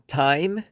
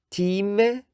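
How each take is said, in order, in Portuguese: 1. A vogal é um ditongo deslizante. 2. A vogal é uma única vogal alta e pura. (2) "houve a ditongação das vogais altas"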